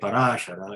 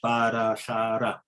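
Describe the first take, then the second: First: The stress falls on the second syllable. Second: All syllables are said with equal weight. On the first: The speaker calls it wrong. "you are putting an accent on the second A, which is not correct" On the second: The speaker calls it right. "the right diction is Parashara"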